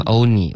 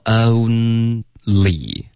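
First: "only" said as oh-nee; imitating only without l. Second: Very slow "only", own then lee; model only with l. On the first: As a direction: mimic the learner dropping l in "only". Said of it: "这刚刚发成only了". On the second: Shown as a demonstration. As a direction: demonstrate a clear l in "only". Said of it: "没有一个了的音出现".

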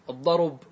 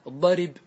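First: الضرب said with damma moved onto the ra, al-ḍarub; teacher models الضرب as al-ḍarub; ضمة on the ra. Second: الضرب said with kasra moved onto the ra, al-ḍarib; teacher models الضرب as al-ḍarib; كسرة on the ra. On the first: Teacher demonstrates pausal الضرب with damma on the ra. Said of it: "انقلوا الضمة إلى الراء". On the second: Teacher demonstrates pausal الضرب with kasra on the ra. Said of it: "نقلت إيش؟ الكسرة". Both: Shown as a demonstration.

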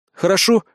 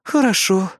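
First: "хорошо" as a higher, rising question. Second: "Хорошо" drawn out and falling, like a sigh; sighed agreement. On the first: Captain asking Kri to behave, "хорошо" rising in question. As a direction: lift "хорошо" at the end to seek agreement. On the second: Partner giving in to the captain, "Хорошо" sighed and falling. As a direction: let "Хорошо" sink in reluctant assent. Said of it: "вздохнула напарница". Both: A narrator's reading.

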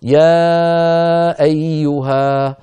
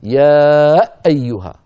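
First: Very slow chant, long level يا gliding gently into أيها; correct smooth hamza. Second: يا held loud, then a hard jolt on the hamza of أيها; wrongly over-stressed hamza. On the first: Teacher shows brothers the proper reading, smooth hamza. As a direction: hold يا evenly, then start أيها without punching it. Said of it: "يقول الإنسان أيها الإخوة". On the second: Teacher shows what never to say, hamza punched. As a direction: punch the glottal stop opening أيها, loudly. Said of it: "ولا يقول أبدًا". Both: Shown as a demonstration.

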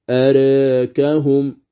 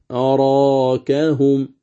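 First: أراكهم slow, the alif tilted toward e; recited with tilt. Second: أراكهم slow with a fully open alif; recited open. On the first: Teacher reciting أراكهم with the preferred tilt. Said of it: "هذا الوجه المقدم". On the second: Teacher reciting أراكهم with an open alif. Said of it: "ويجوز فيها الفتح". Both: Shown as a demonstration.

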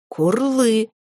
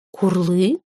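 First: «Курлы!» higher, then falling to a firm close; decisive. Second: «Курлы?» with a steep rise at the end; questioning. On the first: Mother dragon ruling on her child, decisive fall on «Курлы!». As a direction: land «Курлы!» as a verdict, tune coming down. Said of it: "постановила его мать". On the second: Mother dragon querying her son, questioning rise on «Курлы?». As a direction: make «Курлы?» a puzzled creature question, tune swinging up. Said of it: "вопросила она". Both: A narrator's reading.

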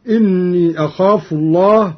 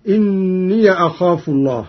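First: Said in the usual way. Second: إني as inniya; open yaa. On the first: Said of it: "قرأ قالون أيضًا بفتح الياء". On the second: Shown as a demonstration. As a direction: recite إني with a final -ya before أخاف. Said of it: "بفتح الياء فيهما".

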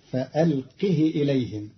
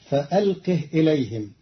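First: فألقه as "fa-alqihi", short final i; short i on ha of فألقه, never lengthened; kasra on ha. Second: Said in the usual way. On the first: Shown as a demonstration. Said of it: "بكسر الهاء بدون صلة". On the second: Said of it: "كلمة فألقه".

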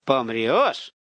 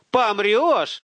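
First: Puzzled, rising question; dawning realization. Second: High, loud incredulous question; alarmed high-pitched outburst; shocked realization. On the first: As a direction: repeat it as it starts to sink in. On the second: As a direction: blurt it out as it hits home. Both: A narrator's reading. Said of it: "вдруг дошло до Руслана".

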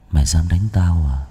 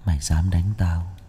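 First: Low menacing voice from beyond; low possessed threat, stress on đánh; gloomy otherworldly voice. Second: Low, quiet voice as if from the underworld; a possessed boy threatening low; gloomy otherworldly voice. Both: Acted. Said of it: "giọng âm u, như từ địa cõi vọng về".

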